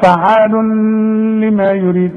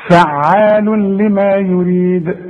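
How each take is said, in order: First: فعال لما يريد with the words split apart and the nun of the tanween kept audible before لما; deliberately wrong recitation of فعال لما يريد without idgham; wrong separate. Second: فعال لما يريد recited slowly, the tanween merged fully into the lam with no nasal hum; slow model recitation of فعال لما يريد, nun swallowed into the lam; correct merging. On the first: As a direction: show the mistake by pausing after فعال instead of merging. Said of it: "لا، خطأ". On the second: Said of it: "ونقراها مع بعض نقول إيه؟". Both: Shown as a demonstration.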